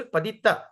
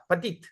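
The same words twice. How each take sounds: First: Padita with its last A clearly sounded; full final A. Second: Padit ending on the T, no A; swallowed final A. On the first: Shown as a demonstration. Teacher shows his own name in full, final A kept. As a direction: say Padita in three full syllables. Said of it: "My initial name is Padita Tarana". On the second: Retold or imitated. Teacher imitates North Indians saying his name, last vowel dropped. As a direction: cut Padita short to Padit. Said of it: "they like to say".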